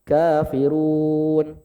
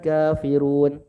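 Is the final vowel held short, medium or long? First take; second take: medium; short. First: The final long vowel is held four counts. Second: The final long vowel is held two counts.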